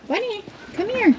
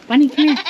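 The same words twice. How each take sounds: First: Much higher, sung-out call with a falling end; high singsong coaxing call. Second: Loud call across the pen; loud calling to the goat. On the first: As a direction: coax the goat with a lilting high call. Calling the goat again. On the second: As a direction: call the goat to come over. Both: Real, not acted.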